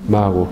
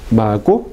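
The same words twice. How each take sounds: First: Mago with a soft, open g and no closure. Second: Mago with a hard k-like stop, "mako"; stopped mago. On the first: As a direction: let the g in Mago glide, no stop. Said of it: "¿cómo se dice?". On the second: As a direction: say mago with a full closure on the g. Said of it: "en vez de decir". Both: Shown as a demonstration.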